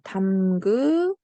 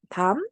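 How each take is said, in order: First: The vowel before the ending is kept. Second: The vowel before the ending is dropped. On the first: The speaker calls it wrong. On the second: The speaker calls it right.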